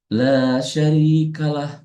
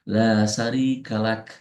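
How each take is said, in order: First: The phrase ends with a soft h sound. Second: The phrase ends with a clear k sound. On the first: The speaker calls it wrong. "suka bablas gitu ya" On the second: The speaker calls it right. "yang betul adalah menggunakan menggunakan kaf"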